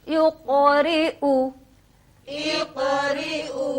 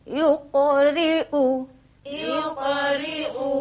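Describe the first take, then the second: The two takes are said the same way.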